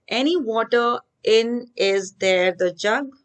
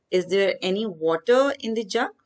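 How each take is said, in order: First: Slow, halting, reading the scrambled order; slow jumbled reading. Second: Said in the usual way. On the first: Shown as a demonstration. Teacher reads the jumbled words to the class, slowly. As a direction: spell out the jumbled words one by one. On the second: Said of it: "Put a question mark".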